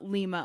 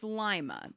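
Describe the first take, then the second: First: It is said like the Peruvian capital. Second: It is said unlike the Peruvian capital. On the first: The speaker calls it wrong. "it's not Lima" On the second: The speaker calls it right. "it's Lima. That's how they pronounce it"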